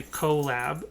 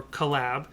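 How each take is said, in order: First: "collab" as KOH-lab, long O up front; stress on CO. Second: "collab" as kuh-LAB, short first syllable; stress on LAB. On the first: Host on cutting the word down, "collab" with stressed KOH. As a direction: lean on the first syllable of "collab". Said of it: "the emphasis changes". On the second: Host on cutting the word down, "collab" with stressed LAB. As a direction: lean on the second syllable of "collab". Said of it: "the emphasis can change". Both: Shown as a demonstration.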